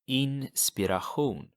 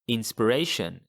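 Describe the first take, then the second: First: The ending has a throaty ch sound. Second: The ending has an sh sound. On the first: This is the Swedish word. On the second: This is the English word.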